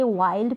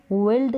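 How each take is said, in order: First: "वाइल्ड" with an "eye" vowel; long i. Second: "विल्ड" with a short "ih" vowel; wrong short i. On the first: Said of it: "वाइल्ड pronounce करेंगे". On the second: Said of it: "विल्ड नहीं पढ़ेंगे". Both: Shown as a demonstration.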